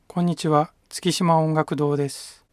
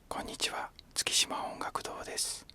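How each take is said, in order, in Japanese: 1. これは中くらいの大きさの声です。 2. これは小さなささやき声です。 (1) "中くらいの声で喋ってみます" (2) "ささやき声で喋ってみます"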